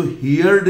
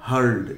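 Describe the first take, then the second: First: हियर्ड said in two syllables, hee-yard, like hear plus d; हियर्ड, the mistaken long hee-yard; wrong pronunciation. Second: हर्ड said as one short syllable, hurd; हर्ड, clipped to a single syllable; correct pronunciation. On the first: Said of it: "इसको हियर्ड नहीं बोलेंगे". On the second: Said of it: "इसका pronunciation हो जाएगा हर्ड". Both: Shown as a demonstration.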